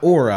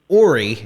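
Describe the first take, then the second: First: The name ends with an 'ah' vowel sound. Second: The name ends with an 'ee' vowel sound. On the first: The speaker calls it wrong. "and not Ora" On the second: The speaker calls it right. "how your name is actually pronounced Ori"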